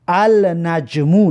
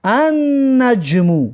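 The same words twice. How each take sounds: First: النجمو with the L sounded, al-najmu; النجمو said al-najmu, lam clearly pronounced; wrong way, lam said. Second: النجمو said an-najmu, lam dropped, doubled n; slow النجمو as an-najmu with doubled n; sun letter, lam silent. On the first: Teacher showing students the wrong form, lam pronounced. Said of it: "نمیگویم که النجمو". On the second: Teacher showing students the right form, silent lam. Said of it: "لام تلفظ نمیکنیم، میگیم که". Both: Shown as a demonstration.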